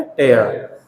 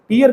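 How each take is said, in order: First: टेयर said "tare", rhyming with care, low and falling; tear as in ripping. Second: टीयर said "teer", rhyming with ear; tear as in crying. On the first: Teacher to class, modelling the ripping tear with "tare". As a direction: give टेयर an open "eh" vowel, low and final. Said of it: "इसका sound होता है टेयर". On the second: Teacher to class, contrasting the noun tear with a long ee. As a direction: say टीयर with a long ee, the word for eye tears. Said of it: "टीयर का मतलब तो होता है आंसू". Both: Shown as a demonstration.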